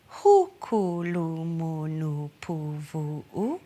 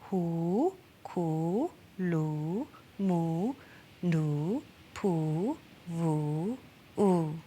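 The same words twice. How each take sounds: First: Each vowel is short. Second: Each vowel is long.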